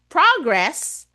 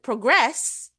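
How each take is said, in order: First: The stress is on the first syllable. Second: The stress is on the second syllable. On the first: It is used as a noun. "yung first syllable ang stress sa word na progress, it's a noun" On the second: It is used as a verb. "it becomes a verb"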